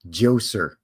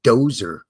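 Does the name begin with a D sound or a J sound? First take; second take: J sound; D sound. First: The name begins with a J sound. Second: The name begins with a D sound. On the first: "with a silent D" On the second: "I'm going to give it the silent J treatment"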